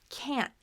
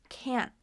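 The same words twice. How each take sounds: Both takes have the same delivery.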